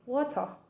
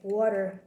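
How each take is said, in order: First: It is said in a British accent. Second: It is said in an American accent. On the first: "in British accent they say water" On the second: "American accent we say water"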